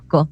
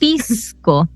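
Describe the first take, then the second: First: The s before the c is a breathy aspiration. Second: The s before the c is fully pronounced. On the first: "como que hay un soplido hacia adentro" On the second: "nosotros no decimos pisco"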